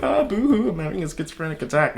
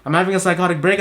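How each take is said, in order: First: High mock wail on boo-hoo, then a quick, dropped schizophrenic attack; sarcastic whiny impression; mocking whine. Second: Said in the usual way. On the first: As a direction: parody a dramatic poster. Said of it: "go on the internet and be like". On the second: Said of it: "It's like, no".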